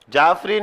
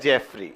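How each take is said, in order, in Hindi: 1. पहला स्वर 'father' में 'a' जैसा बोला जाता है। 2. पहला स्वर 'bed' में 'e' जैसा बोला जाता है। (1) "जाफरी नहीं" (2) "एलेक्स जेफरी"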